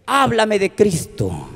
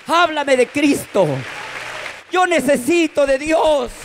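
First: Put-on slow, understated drunk request; lightly voiced drunk man asking; drunk friend. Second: Put-on high, insistent drunken plea; pleading drunk. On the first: Drunk friend asks the preacher about Christ, slow request. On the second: Drunk man begs the preacher for God, high plea. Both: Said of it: "viene totalmente tomado por el alcohol".

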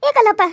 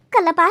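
First: Loud call. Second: Said in the usual way. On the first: Acted. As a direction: call his name out loud across the yard. Calling out to Kallappa. (ಜೋರಾಗಿ ಕೂಗಿ ಕರೆಯುವುದು)

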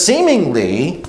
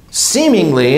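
First: Said in the usual way. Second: Weight the word seemingly as doubtful; stress on seemingly. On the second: Shown as a demonstration. Preacher to church, seemingly stressed with doubt. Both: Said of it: "emphasize the seemingly".

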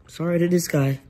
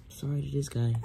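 First: Sorry to this guy, louder and higher, stressing this; louder repeat. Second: Said in the usual way. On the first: Real, not acted. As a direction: repeat it with more force on this.

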